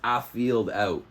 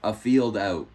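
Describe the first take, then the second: The two takes are said the same way.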